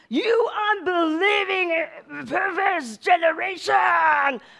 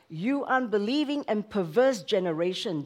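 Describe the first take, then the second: First: It is said in an angry tone. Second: It is said in a calm, gentle tone.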